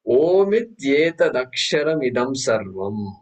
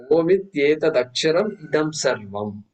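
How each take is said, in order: First: Slow, measured recitation of the Sanskrit mantra. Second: Said in the usual way. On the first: Shown as a demonstration. Teacher reciting the mantra slowly to his students. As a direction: lay out each syllable of "Omityetadaksharam idam sarvam" slowly, like a chant. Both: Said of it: "look at the first mantra".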